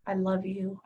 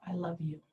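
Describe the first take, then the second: First: Said in the usual way. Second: Whispered. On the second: Shown as a demonstration. Teacher showing self-love words, whispered. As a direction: whisper I love you softly to yourself. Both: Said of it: "Say it to yourself".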